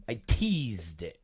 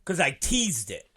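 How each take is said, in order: First: Softer, lower and slow; hushed teasing echo; quiet slow repeat. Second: Said in the usual way. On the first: Shown as a demonstration. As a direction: let it drop to a low murmur. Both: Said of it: "repeats the tease line".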